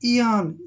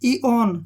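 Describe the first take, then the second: First: The second vowel sounds like 'a' in 'an'. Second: The second vowel sounds like 'o' in 'on'. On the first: The speaker calls it right. "और ओ को यहाँ पढ़ेंगे आ" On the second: The speaker calls it wrong. "ईओन बिल्कुल गलत है।"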